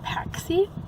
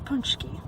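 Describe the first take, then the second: First: The word is said with a 'ks' sound. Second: The word is said with an 'nch' sound. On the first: The speaker calls it wrong. "it's spelled like Paxi, and that's how I pronounced it" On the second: The speaker calls it right. "correct pronunciation is a Punchki"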